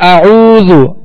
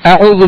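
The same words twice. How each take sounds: First: The vowel after the first consonant is lengthened. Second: The vowel after the first consonant is short. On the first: The speaker calls it right. "आइन को थोड़ा दराज करेंगे" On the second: The speaker calls it wrong. "आऊज़ु बिल्लाह नहीं पढ़ेंगे"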